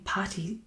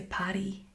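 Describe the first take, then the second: First: "Patty" with a flapped American t, whispered; wrong "Patty". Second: "Paddy" with a crisp Irish d, voiced. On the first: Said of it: "when you're saying "Patty," I'm pronouncing it different". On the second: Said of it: "You say "Paddy". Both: Shown as a demonstration.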